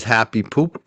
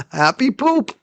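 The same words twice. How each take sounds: First: Said in the usual way. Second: Laughing, higher and slower; amused repeat. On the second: Real, not acted. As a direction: savour the silly words with a laugh.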